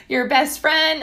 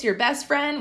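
First: Said in the usual way. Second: Voice cracking. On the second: Real, not acted. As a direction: voice cracks on friend. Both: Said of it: "wow, my voice just cracked".

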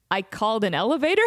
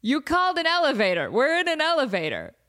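First: "I called an elevator?" rising on elevator in disbelief; quick, puzzled rise ending "elevator?"; confused question. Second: "You called an elevator" higher, falling to a firm end; emphatic confirmation. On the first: Confused caller to people in elevator, "elevator?" rising in disbelief. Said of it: "he's so confused". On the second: Friends confirming to confused caller, "elevator" stated emphatically. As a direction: spell out "elevator" as a settled fact. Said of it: "We're like, Yeah". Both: Retold or imitated.

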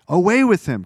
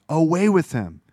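First: The crowd's chant again, louder and higher; mock crowd shout. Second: A first, somewhat raised crowd chant; mock crowd cry. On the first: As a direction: let the mob's demand swell. Crowd cry repeated, escalating. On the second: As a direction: start the mob's demand. Crowd demands crucifixion, first cry.

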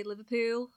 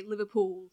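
First: Liverpool said with a Scouse accent. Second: Liverpool said with a Manc accent; Manchester accent. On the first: Showing how locals say their city, Scouse accent. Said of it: "they'll say Liverpool like that". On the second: Showing how Mancunians say Liverpool, Manchester accent. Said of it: "if you're from Manchester". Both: Shown as a demonstration.

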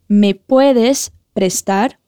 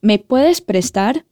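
First: Slower repeat. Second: Slow, clear model phrase; slow repeat-after-me. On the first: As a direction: stretch it out for learners. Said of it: "Repete comigo". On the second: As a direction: say it slowly for learners. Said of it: "Repete comigo como a gente pergunta". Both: Shown as a demonstration.

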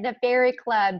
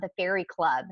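First: "Fairy Club" said again higher and louder, weight on "Fairy"; "Fairy" punched, falling to "Club"; emphatic repeat. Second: Said in the usual way. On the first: Shown as a demonstration. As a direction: hit "Fairy" hard as if to say yes, really. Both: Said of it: "that's what I said".

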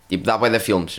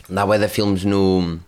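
First: Said in the usual way. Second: Slow, weight on "bué"; emphatic repeat with "bué" stretched; stress on bué. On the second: Shown as a demonstration. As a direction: lean into "bué" and draw the line out slowly.

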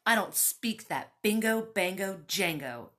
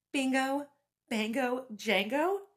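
First: Louder, dismissive spit of words; a man scoffing at a foreign language; spat out. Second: Higher, louder disbelieving echo; incredulous repeat. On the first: A narrator's reading. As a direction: spit the nonsense words out with contempt. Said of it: "Ronaldo spat". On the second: Retold or imitated. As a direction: repeat it back like you can't believe it. Incredulous repeat of his words.

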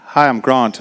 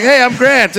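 First: "Grant" in the speaker's everyday Australian vowel; Australian pronunciation. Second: Higher, louder mock-American introduction; chirpy put-on American accent on "Grant"; American pronunciation. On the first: Retold or imitated. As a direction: say "Grant" with a long ah, like Grahnt. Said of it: "be like". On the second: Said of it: "sort all the problems out".

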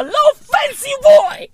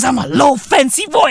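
First: Very high, playful squeal; squealed boast. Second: Said in the usual way. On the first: Acted. Comedian admitting he is used to luxury, high squealed boast.

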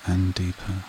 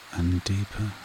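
Both takes have the same delivery.

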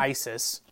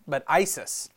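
First: ISIS said like the terror group name; wrong ISIS. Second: Put-on Isis as the kid misheard the character's name; Isis, a kid mishearing the word for the blind man. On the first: Correcting the kid's name mix-up, ISIS said the wrong way. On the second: Correcting the kid's name mix-up, Isis the misheard name. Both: Shown as a demonstration. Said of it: "Not mm-hmm. ISIS, but Isis".

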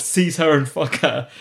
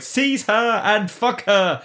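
First: Slow, commanding queen line; imperious quote. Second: High, very slow imperious command; mock regal command. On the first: Retold or imitated. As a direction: order it like royalty. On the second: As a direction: decree it like a haughty queen. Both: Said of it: "the authority in the voice of".

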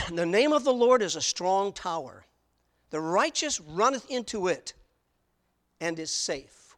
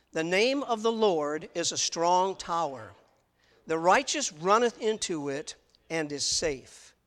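First: Louder, measured reading of the verse; solemn Bible reading; scripture reading. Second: Slow, deliberate reading with the congregation; slow unison reading. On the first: Acted. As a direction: read the verse out to the congregation. Preacher reads scripture aloud. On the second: Shown as a demonstration. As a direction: lead the room through the verse word by word. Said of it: "read that verse together with me".

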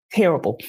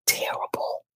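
First: Said in the usual way. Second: Breathy whispered verdict. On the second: Real, not acted. Co-host whispering her verdict on the show, hushed. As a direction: whisper the word like a final sigh.

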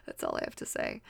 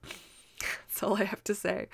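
First: Very low, mock-serious; deep voice. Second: Breathy whispered aside; whispering. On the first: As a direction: drop the voice low and solemn. Repeated aside, deep. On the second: Real, not acted. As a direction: drop to a whisper, laughing.

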